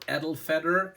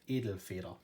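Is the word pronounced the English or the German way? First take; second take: English; German. First: The word is said with an English-speaker pronunciation. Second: The word is said with a German pronunciation. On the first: The speaker calls it wrong. "as I have heard some Americans or British people say" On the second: The speaker calls it right. "it's pronounced Edelfeder"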